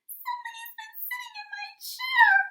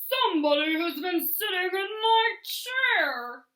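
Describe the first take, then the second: First: It is said in a high, squeaky voice. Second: It is said in a loud, growly voice.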